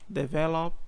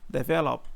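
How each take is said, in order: The two takes are said the same way.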